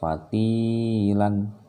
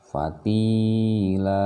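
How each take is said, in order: First: The word ends with an 'n' sound. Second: The word ends on a long 'a' vowel. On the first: The reading continues on to the next words. The speaker calls it wrong. "tidak fatilan, bukan ya" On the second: The reciter is stopping at this word. The speaker calls it right. "dia berarti harus dibaca panjang"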